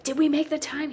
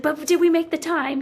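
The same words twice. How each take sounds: First: High-pitched anxious question, retold; retold panic. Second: Louder, high-pitched anxious insistence; insistent retold panic. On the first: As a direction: ask nervously, pitch lifted, re-enacting the worry. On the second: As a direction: press the question urgently, high and loud. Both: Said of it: "I was panicking that we weren't gonna make the time".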